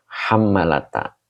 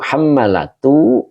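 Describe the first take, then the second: First: The word ends with an 'a' vowel. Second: The word ends with a 'u' vowel. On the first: The word is read in the accusative case. "dibaca nasab yaitu hammalata" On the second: The word is read in the nominative case. "boleh dibaca birraf'i yaitu hammalatu"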